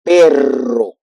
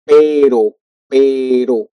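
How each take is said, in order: First: Perro with a rolled double R; trilled perro. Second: Pero with one quick tap of the R; tapped pero. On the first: Teacher modeling the trilled Perro. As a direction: roll the R strongly in Perro. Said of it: "double R". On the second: Teacher modeling a single-tap Pero. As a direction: flick the R once in Pero. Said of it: "only one R". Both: Shown as a demonstration.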